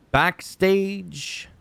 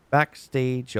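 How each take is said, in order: First: High, drawn-out announcer call of the word Backstage. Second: Said in the usual way. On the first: Shown as a demonstration. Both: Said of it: "Oh, we gotta talk about the backstage".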